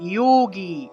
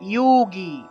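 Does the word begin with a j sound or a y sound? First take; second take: y sound; y sound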